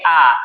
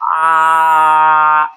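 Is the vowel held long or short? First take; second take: short; long. First: The vowel is said briefly, at normal length. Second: The vowel is drawn out for a long time. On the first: "तो इसको हम केवल कहेंगे आ" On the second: "अब इसको थोड़ा देर तक बोलना है"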